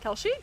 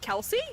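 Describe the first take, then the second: First: The middle sound is a sh sound. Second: The middle sound is a plain s sound.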